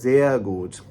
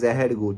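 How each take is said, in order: First: The r in sehr sounds like 'ah'. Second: The r in sehr sounds like a consonant. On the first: The speaker calls it right. "it's sehr gut" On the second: The speaker calls it wrong. "It's not sehr gut"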